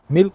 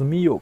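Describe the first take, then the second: First: The word has a clear L sound. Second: The L becomes a Y-like glide with an extra vowel. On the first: "my kindergarten teacher used to call milk miyok" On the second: "Milk was miyok"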